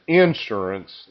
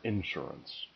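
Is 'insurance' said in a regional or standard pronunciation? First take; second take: regional; standard. First: It is said in a rural regional pronunciation. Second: It is said in the standard pronunciation. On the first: The speaker calls it wrong. "said insurance" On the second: The speaker calls it right. "the proper insurance"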